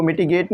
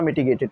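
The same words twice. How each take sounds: First: "मिटिगेट" stopping at "gate"; rejected short form. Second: "मिटिगेटेड" with the "-ed" syllable sounded; corrected long form. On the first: Teacher correcting himself after playback, "मिटिगेट" ending in "gate". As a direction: say "मिटिगेट" with no final -ed syllable. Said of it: "मिटिगेट नहीं पढ़ा जा रहा". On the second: Teacher correcting himself after playback, "मिटिगेटेड" ending in "-ted". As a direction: finish "मिटिगेटेड" on a clear "ted". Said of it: "मिटिगेटेड पढ़ा जा रहा है". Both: Shown as a demonstration.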